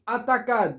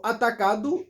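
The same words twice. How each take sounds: First: "atacado" with the final O swallowed; "atacado" ending on a bare D; foreigners' mispronunciation. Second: "atacado" with the final O voiced as "oo"; correct full ending. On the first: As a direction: cut "atacado" short to "atakad". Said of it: "nós digamos assim". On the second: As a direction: pronounce every letter of "atacado", ending "-du". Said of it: "todas as letras se pronunciam". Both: Shown as a demonstration.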